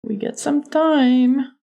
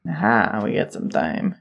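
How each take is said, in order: First: High, slow mock Texan; bad Texas accent. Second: Very low, soft mock Texan; bad Texas accent. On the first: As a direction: pitch up and stretch out a bad Texan. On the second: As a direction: drop way down into an amateur Texas accent. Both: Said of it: "Doing a really bad Texas accent".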